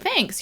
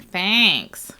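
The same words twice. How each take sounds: First: It is said in a plain, non-nasal voice. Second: It is said in a nasal voice. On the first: The thanks is sincere. "instead of saying thanks" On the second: The thanks is sarcastic. "they use a more nasal tone to indicate that sarcasm"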